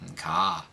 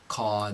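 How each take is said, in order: First: The R is dropped and pitch rises. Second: The R is dropped and pitch stays flat. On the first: It sounds like someone from Boston. The speaker calls it wrong. "otherwise you'll sound like you're from Boston" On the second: It sounds like a New Yorker. The speaker calls it right. "reduce to a dropped R"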